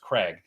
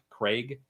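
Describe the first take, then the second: First: The name is said the American way, not like plague. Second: The name is said the British way, rhyming with plague. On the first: "in America. Anyone's name that's Craig is is pronounced Craig" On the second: "in England it's it's Craig, like plague"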